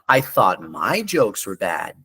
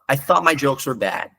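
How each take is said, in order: First: The intonation rises and falls with lively pitch. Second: The intonation is flat with little pitch movement. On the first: The speaker calls it right. "Ele fala" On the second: The speaker calls it wrong. "Ele não fala"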